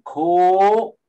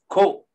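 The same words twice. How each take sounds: First: The vowel is held long and smooth. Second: The vowel is clipped short by a glottal stop. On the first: The speaker calls it wrong. "Instead of going ko" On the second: The speaker calls it right. "this glottal stop does is cut the O in half"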